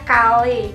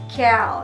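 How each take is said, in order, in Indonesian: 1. Dilafalkan dengan lafal Indonesia. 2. Dilafalkan dengan lafal Inggris. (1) "orang Indonesia biasa menyebutnya kale" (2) "orang bule biasa menyebutnya kale"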